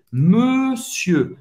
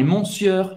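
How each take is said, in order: First: "monsieur" as a slow, stretched meu-syeu, silent R; correct French pronunciation. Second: "monsieur" read as mon-syeur with final R sounded; wrong spelling pronunciation. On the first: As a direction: say "monsieur" drawn out, closed EU in both syllables. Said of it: "é monsieur". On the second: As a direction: say "monsieur" with nasal ON and audible R. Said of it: "não é monsieur". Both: Shown as a demonstration.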